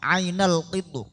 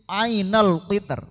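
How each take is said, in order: First: The final r is heavy, with rounded lips. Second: The final r is thin and light. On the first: "Kalau tafkhim berarti terakhir niku ketika wakaf ro moncong" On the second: "Kalau tarkik tipis"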